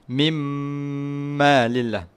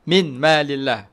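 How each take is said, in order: First: The n merges into a long nasal m. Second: The n sound is pronounced clearly before m. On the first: "Senun kita buangkan, lepas tu kita masukkan kepada mim... panjangkan dua harakat" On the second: "dia asalnya min"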